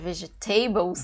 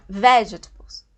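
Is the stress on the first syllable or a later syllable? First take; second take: later; first. First: The stress falls on a later syllable. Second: The stress falls on the first syllable. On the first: The speaker calls it wrong. "A gente falaria já vegetables" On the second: The speaker calls it right. "a sílaba forte, é no início"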